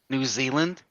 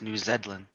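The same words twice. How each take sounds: First: It is said with an American pronunciation. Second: It is said with a British pronunciation. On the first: "how Americans say New Zealand" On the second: "to a British person, it's New Zealand"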